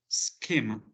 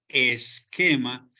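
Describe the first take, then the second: First: The word starts directly with the s sound. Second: An extra e sound comes before the s. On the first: The speaker calls it right. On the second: The speaker calls it wrong. "no diríamos"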